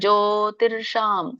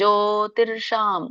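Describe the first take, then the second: First: An r sound comes before the sh. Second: The same.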